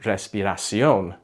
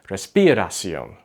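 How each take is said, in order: First: The stress falls on the expected syllable. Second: The stress falls on a misplaced syllable. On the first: The speaker calls it right. "instead of saying respiración" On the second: The speaker calls it wrong. "put the accent or the emphasis on the wrong syllable"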